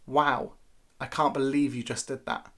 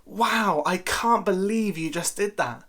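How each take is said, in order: First: Dry disapproval, voice dropping; unimpressed wow. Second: High, bright amazed delivery; admiring exclamation, lifted pitch; impressed wow. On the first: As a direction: say it like a telling-off. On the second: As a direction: sound genuinely impressed. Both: Shown as a demonstration. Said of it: "notice the difference in emphasis".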